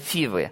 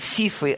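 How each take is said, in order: First: The middle consonant is a v sound. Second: The middle consonant is an f sound. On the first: The speaker calls it right. "а Фивы" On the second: The speaker calls it wrong. "Не Фифы, Некоторые неправильно читают"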